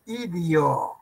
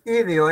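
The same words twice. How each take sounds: First: Idio drawn out slowly with a clear i, i-dio; correct pronunciation idio. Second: Idio said with an e, as i-de-o; wrong pronunciation ideo. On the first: Teacher correcting students, idio slowly with a clear second i. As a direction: stretch idio, keeping i in both syllables. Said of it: "es idio". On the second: Teacher showing students the error, idio said as i-de-o. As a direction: open the middle vowel of idio to e. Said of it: "No es idio". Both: Shown as a demonstration.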